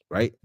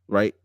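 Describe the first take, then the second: No difference in how they are said.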